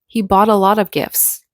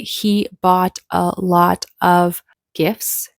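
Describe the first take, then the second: First: The T sounds are flapped and words linked. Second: The T sounds are clear and words separate. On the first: "They said" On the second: "the speaker didn't say"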